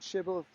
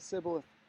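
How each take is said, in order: First: The word begins with an sh sound. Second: The word begins with an s sound. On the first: The speaker is a Gileadite. "as an S H" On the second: The speaker is an Ephraimite. "or as an S"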